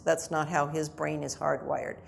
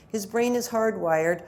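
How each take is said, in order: First: Said in the usual way. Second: Slow down and lean on brain is hardwired; stress on brain. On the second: Shown as a demonstration. Lecturer to parents, stressing brain is hardwired slowly.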